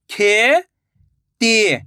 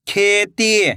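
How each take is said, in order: First: खेती drawn out slowly, syllable by syllable; slow syllable split. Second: Said in the usual way. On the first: Shown as a demonstration. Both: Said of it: "मैं किस तरीके से".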